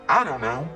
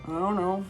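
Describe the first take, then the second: First: It is said with some enthusiasm. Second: It is said with even less enthusiasm.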